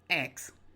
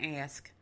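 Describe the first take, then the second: First: The word ends with a ks sound. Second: The word ends with an sk sound. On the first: The speaker calls it wrong. "That's what I've been saying, and it's wrong" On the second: The speaker calls it right. "he made me practice saying ask"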